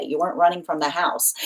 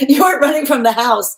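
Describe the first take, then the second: First: Said in the usual way. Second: Laughing, much higher and louder. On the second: Real, not acted. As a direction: burst out laughing as you repeat it.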